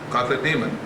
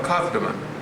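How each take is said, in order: First: The ending is said fully as 'demon'. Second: The ending is shortened to a 'man' sound. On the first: "I like to pronounce the demon portion of it again" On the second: "Some call it Akathaman"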